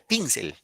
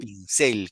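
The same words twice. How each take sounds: First: The stress is on the first syllable. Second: The stress is on the second syllable. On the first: The speaker calls it wrong. "Si fuera ahí la I, diría pincel" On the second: The speaker calls it right. "en la cel, ¿no? Muy bien"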